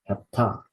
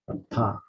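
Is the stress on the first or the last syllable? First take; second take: last; last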